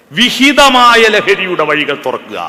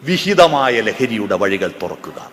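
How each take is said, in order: First: Louder and slow, each word of വിഹിതമായ ലഹരിയുടെ വഴികൾ തുറക്കുക driven home; emphatic repeat. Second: Said in the usual way. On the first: Shown as a demonstration. Speaker urging the excise officers, slow emphatic call. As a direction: hammer the call to open the healthy paths. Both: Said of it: "repeated for emphasis".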